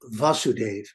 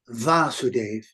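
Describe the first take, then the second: First: The first vowel is short. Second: The first vowel is long. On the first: It names the father of Krishna. The speaker calls it wrong. "not as Vasudev, because Vasudev is the name of the father of Krishna" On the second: It is the intended word in the text. The speaker calls it right. "you have to really pronounce it as"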